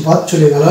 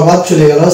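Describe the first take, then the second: No difference in how they are said.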